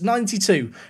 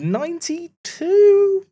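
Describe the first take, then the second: First: It is said firmly and confidently. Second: It is said hesitantly, like a question. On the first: The speaker is certain of the number. The speaker calls it right. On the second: The speaker is not certain of the number. The speaker calls it wrong.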